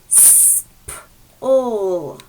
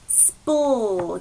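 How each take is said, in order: First: The sounds are said separately with a break. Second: The sounds are blended smoothly together.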